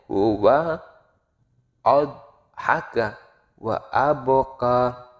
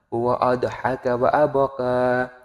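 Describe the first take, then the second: First: The phrase is broken up with pauses. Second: The phrase is read in one breath. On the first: It makes the reading easier. "Bisa seperti itu hanya untuk oh, memudahkannya saja" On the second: It is one sentence, read without separation.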